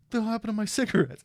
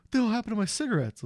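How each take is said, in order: First: Much higher, fast mock outrage; friend Ogre. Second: High, rushed imitation of an indignant friend; friend Ogre. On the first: Teller mimicking his friend Ogre's outrage, high and quick. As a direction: squeal it like a put-out buddy. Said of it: "He was like". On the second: Retelling Ogre finding his ruined pack, high fast mock outrage. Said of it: "And he's like".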